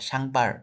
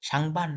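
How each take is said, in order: First: The word ends with an r sound instead. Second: The word ends with a plain n sound. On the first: "তারা বলে সাংবার" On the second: "সাংবান না বলে"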